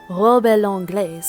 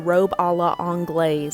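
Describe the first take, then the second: First: It is said with a French accent. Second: It is said with an American accent. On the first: "let me try" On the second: "so I just said it as American as possible"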